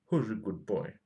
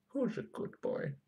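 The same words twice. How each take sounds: First: Doggy praise at normal pitch; praising a dog. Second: High whispered puppy praise; squeaky praising a dog. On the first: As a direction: coo it like to a pet, voice unraised. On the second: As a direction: breathe it out in a tiny high squeak. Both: Pretend. Cooing praise at the circuit board.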